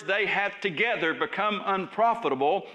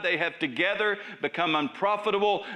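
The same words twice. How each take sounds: First: "together" lifted with a rising tune; emphasis on the words. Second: Said in the usual way. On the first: Shown as a demonstration. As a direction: lean into "together", let it rise. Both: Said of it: "I emphasize the words".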